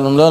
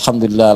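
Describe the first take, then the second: First: It is said fast, without feeling. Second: It is said slowly, with feeling.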